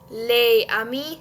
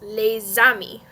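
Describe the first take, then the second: First: The S of les is silent, with no linking. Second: The S of les is pronounced, linking into amis. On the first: The speaker calls it wrong. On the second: The speaker calls it right.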